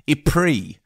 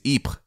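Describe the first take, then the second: First: It is said with a British English pronunciation. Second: It is said with a French pronunciation. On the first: This is the name most English speakers use. "a beautiful British mangling of French" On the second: This is the name French speakers use. "The French pronunciation is Ypres"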